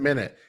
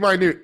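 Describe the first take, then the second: First: It sounds like MIN-it, the time word. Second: It sounds like my-NOOT, meaning small. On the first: This is the common way lawyers say it. The speaker calls it wrong. "Every lawyer I know pronounces it minute. Every lawyer is wrong" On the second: This names the word that means small. The speaker calls it right. "It's supposed to be minute. It's a small thing"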